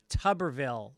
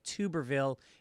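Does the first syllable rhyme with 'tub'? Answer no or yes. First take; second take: yes; no. First: The first syllable sounds like 'tub'. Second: The first syllable does not sound like 'tub'. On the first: The speaker calls it right. "It's pronounced Tuberville, like tub of shit" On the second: The speaker calls it wrong. "you guys kept pronouncing that idiot senator's name like Tuberville"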